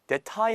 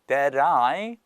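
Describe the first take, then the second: First: The t is a hard, aspirated t sound. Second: The t is a quick flap, like an r. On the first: The speaker calls it wrong. "that tie 하면 말씀드렸듯이 다른 나라 말 같잖아요" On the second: The speaker calls it right. "이거는 역시나 르로 발음이 된다"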